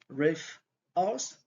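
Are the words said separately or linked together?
separately. Each word is said separately.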